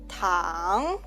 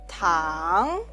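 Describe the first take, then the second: The two takes are said the same way.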